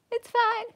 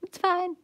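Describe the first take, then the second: First: Much higher, squeaky "it's fine". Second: Flat resigned "it's fine". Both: Pretend. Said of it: "crying to myself".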